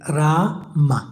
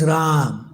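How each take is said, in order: First: Ra-ma with long first a, short second a. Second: Ram with long "aa", closing on m; Ram, one syllable. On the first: Teacher showing the mantra's lip movement, Ra long, ma short. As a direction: say Ra-ma in two parts, lips parting after m. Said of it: "therefore it's long pronounced". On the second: Teacher showing the calling-out form, Ram closed on m. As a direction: say Ram with no vowel after the m. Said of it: "So R A A M". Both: Shown as a demonstration.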